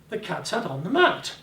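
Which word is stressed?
mat. The word mat carries the emphasis. It was the mat, not the table. "The bloody mat, not the table, but the mat"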